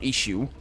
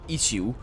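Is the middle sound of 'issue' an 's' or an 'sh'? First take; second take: sh; s. First: The middle consonant is a hushing sh sound. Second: The middle consonant is a hissing s sound. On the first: The speaker calls it wrong. "not issue" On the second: The speaker calls it right. "it's got double S's, so it should be issue"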